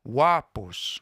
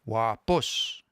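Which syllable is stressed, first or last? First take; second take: first; last. First: The stress is on the first syllable. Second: The stress is on the last syllable. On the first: The speaker calls it wrong. "So we don't say wapos" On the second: The speaker calls it right. "the pitch accent will be on the last one"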